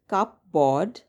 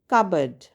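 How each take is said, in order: First: The P sound is pronounced. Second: The P sound is silent. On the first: The speaker calls it wrong. "It's spelled cupboard, but that's not how we pronounce it" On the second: The speaker calls it right. "The right way to pronounce this word is cupboard. The P is silent"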